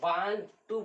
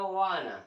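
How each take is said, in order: First: Both words are said fully and separately. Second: The words blend into one reduced word. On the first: "हम लोग वान टू बोलते हैं" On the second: "American बोला वाना"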